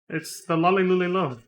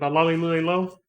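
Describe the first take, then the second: First: It is said slowly, with each syllable kept separate. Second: It is said quickly, with the sounds running together. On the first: The speaker calls it right. "I should say it a little slower" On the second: The speaker calls it wrong. "Said that a little fast, didn't I?"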